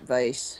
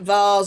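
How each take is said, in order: First: The word is said the American way. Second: The word is said the British way. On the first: "Americans pronounce it" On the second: "We pronounce it"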